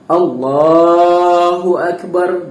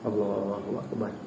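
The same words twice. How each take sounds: First: It is said clearly and audibly, with energy. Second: It is said weakly and lazily, without energy. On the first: The speaker calls it right. "kita mesti sebut Allahu Akbar" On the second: The speaker calls it wrong. "nak sebut Allahu Akbar takbiratul ihram tu pun malas"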